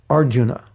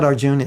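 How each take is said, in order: First: "Arjuna" as AR-ju-na, first syllable stressed; correct "Arjuna". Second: "Arjuna" stressed on JUN, final a nearly dropped; wrong "Arjuna". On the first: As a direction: say "Arjuna" with all three syllables. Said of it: "it's Arj". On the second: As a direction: say "Arjuna" as ar-JOON. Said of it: "It's not Arjuna". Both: Shown as a demonstration.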